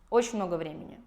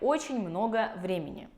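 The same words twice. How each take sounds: First: The word ending of "очень" is dropped. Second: The word ending of "очень" is fully pronounced.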